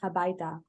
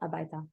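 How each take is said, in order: First: The word begins with an audible h sound. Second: The word begins with a vowel, no h. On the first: The speaker calls it right. "but it is habaita" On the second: The speaker calls it wrong. "It's not abaita"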